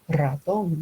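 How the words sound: The R is said like a German R.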